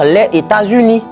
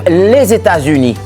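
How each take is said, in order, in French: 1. Les mots se disent sans aucun son de liaison. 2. La consonne finale se lie au mot suivant. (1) "on ne va pas dire" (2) "la liaison est obligatoire"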